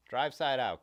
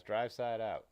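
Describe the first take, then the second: First: "Drive side out" called a bit louder; stress on Drive side out. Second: Said in the usual way. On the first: Real, not acted. Streamer scolding viewers about bike photos, loud emphatic call.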